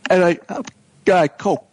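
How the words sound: It is choppy with clenched, dropped syllables.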